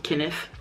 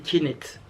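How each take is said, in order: First: The name is said with English sounds. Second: The name is read with French spelling sounds. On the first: "ceux qui sont anglophones" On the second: "quand tu le lis en français, pour moi c'est Kenneth"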